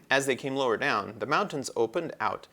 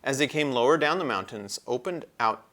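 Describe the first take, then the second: No difference in how they are said.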